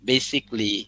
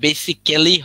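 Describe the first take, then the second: First: The word is said with three syllables. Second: The word is said with four syllables. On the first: The speaker calls it right. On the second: The speaker calls it wrong. "এখানে বেসিক্যালি হবে না"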